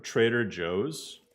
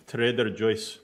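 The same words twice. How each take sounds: First: Said in the usual way. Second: Joe's turned into "Joyce"; funny foreign mispronunciation. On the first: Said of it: "instead of Trader Joe's". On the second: Shown as a demonstration. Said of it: "funniest pronunciations of certain things".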